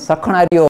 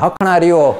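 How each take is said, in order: First: The word begins with an s sound. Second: The word begins with an h sound. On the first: "but they won't say Sakhana" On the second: "they say"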